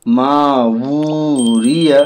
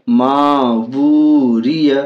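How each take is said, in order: Both takes have the same delivery.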